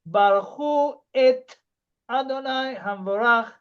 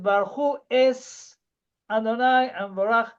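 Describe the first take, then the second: First: The second word ends with a t sound. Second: The second word ends with an s sound. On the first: "He did not sing"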